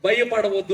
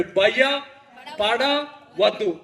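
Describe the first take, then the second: First: Said in the usual way. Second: భయపడవద్దు stretched very slowly, every syllable held; drawn-out reassurance. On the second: Shown as a demonstration. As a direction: linger on each sound of భయపడవద్దు to let it sink in.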